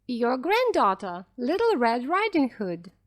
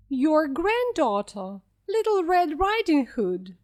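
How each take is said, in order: First: Said in the usual way. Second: Put-on wolf faking the girl's voice, pitched up; squeaky wolf. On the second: A narrator's reading. Wolf at grandmother's door pretending to be the girl, squeaking. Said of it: "squeaked the wolf".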